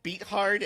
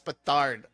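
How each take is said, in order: First: The name sounds like the two words beat hard. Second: The name is said smoothly as one word, betard. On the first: The speaker calls it wrong. "I first called it Beat Hard" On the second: The speaker calls it right. "But I think it's Betard"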